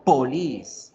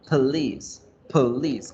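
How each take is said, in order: First: "police" with a full round O in the first syllable; wrong full O. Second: "police" with the O shrunk to a weak uh; schwa in police. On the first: Teacher showing wrong "police", full O. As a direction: sound the O of "police" fully. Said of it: "yo no digo police". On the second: Teacher modelling correct "police", schwa first syllable. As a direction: reduce the first syllable of "police", almost like please. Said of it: "se dice con la schwa". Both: Shown as a demonstration.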